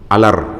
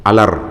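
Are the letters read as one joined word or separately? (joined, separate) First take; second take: joined; joined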